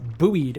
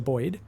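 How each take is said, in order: First: The word is said with an American pronunciation. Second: The word is said with a non-American pronunciation. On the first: "as you guys say in America" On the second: "for us, we just say buoyed"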